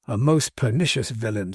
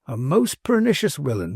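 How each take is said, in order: First: Said in the usual way. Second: "villain" said with a W, as "willain"; dialect V as W. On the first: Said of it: "said Martin". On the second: Acted. Manservant echoing his master, "villain" pronounced "willain".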